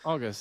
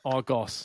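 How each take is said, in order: First: The last syllable has a reduced 'uh' vowel. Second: The last syllable has a full 'o' vowel. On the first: The speaker calls it right. "It's so much easier. It flows off the tongue" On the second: The speaker calls it wrong. "If you say it the way it's spelled, it, uh, it sounds really aggressive"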